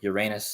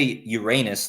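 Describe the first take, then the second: First: The middle syllable does not sound like rain. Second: The middle syllable sounds like the word rain.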